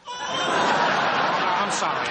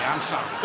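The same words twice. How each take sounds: First: "I'm sorry" forced out through loud laughter, slow; laughing apology. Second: Said in the usual way. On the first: Real, not acted. Husband breaking into laughter mid-mockery, laughing apology. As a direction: apologise while still cracking up.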